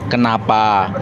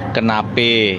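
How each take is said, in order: First: Both vowels after 'ken' are open 'a' sounds. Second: The final vowel is an 'e' sound. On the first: "kenapa bahasa apa bahasa Melayu" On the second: "kenape Betawi"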